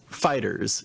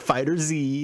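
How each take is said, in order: First: The ending is a plain S sound. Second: The ending is the letter Z spelled out. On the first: The speaker calls it right. "it's Fighters" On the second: The speaker calls it wrong. "not Fighter Z"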